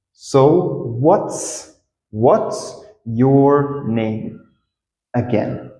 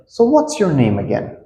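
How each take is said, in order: First: Very slow, word by word; slow, stretched-out teaching demo; slow model. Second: Said in the usual way. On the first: Shown as a demonstration. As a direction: draw out each word for learners. Teacher models the phrase slowly.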